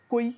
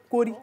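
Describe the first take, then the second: First: The word has a y sound, no r. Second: The word has an r sound in it. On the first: This is the Kozah dialect form. "chez nous, on dit euh, Koi" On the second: This is the other group's dialect form. "ils disent Kori"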